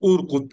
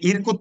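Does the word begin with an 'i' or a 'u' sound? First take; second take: u; i. First: The word begins with a 'u' vowel. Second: The word begins with an 'i' vowel. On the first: The speaker calls it right. "উরকুত করতে হবে" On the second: The speaker calls it wrong. "আপনি ইরকুত পড়লে এটা কি শুদ্ধ হবে? ... শুদ্ধ হবে না"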